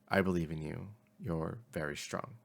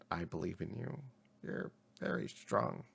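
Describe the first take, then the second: First: It is said in a normal voice. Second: It is said in a strained parrot-like voice.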